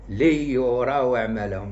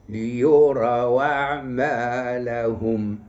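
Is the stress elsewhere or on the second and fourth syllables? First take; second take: elsewhere; second and fourth. First: The stress is not on the second and fourth syllables. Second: The stress is on the second and fourth syllables. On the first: The speaker calls it wrong. "ما نقولش ليراو أعمالهم، لا" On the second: The speaker calls it right. "خص النبر يكون على الثاني وعلى الرابع"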